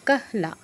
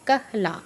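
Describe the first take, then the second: The two takes are said the same way.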